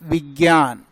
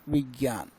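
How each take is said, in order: First: The cluster is said with a g sound. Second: The cluster is said the Sanskrit way. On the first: This is how it is said in one particular region. The speaker calls it wrong. "किसी क्षेत्र विशेष में बोला जाता है" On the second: This is the correct standard form. The speaker calls it right. "जबकि सही शब्द क्या है?"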